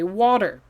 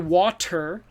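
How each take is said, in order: First: The middle consonant sounds like a soft D. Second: The middle consonant is a clear T sound. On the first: "native speakers will say water. focus on it sounds like a D" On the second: "this is another time when it has a T"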